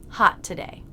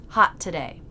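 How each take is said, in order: No difference in how they are said.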